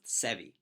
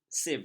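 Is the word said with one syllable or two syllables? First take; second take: two syllables; one syllable. First: The word is said as two syllables. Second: The word is said as one syllable. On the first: The speaker calls it wrong. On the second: The speaker calls it right.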